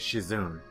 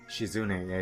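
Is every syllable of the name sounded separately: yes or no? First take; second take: no; yes. First: The syllables are run together, not sounded separately. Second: Every syllable of the name is sounded separately. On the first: The speaker calls it wrong. "people mispronounce the uh, name Shizune as Shizune" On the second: The speaker calls it right. "name Shizune"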